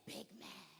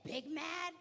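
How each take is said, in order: First: Whispered, secretive reply. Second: Players asking. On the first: Coach whispering a secret to her players. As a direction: lean in and whisper it. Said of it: "I said". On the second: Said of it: "They said". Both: Retold or imitated.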